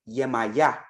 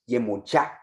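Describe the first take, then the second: First: The name is said in its Caribbean form. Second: The name is said in its Nigerian form. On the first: "In the Caribbean" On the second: "In Nigeria"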